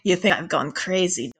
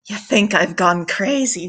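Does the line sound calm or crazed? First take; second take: calm; crazed. First: The line is delivered in a calmer, plainer manner. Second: The line is delivered in an exaggerated, crazed manner.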